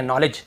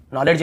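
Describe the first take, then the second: First: Said in the usual way. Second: "नॉलेज" with the D sounded before j; wrong pronunciation. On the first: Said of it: "D भी silent है". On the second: Shown as a demonstration. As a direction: say "नॉलेज" as nol-ed-j. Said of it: "नॉलेज नहीं है".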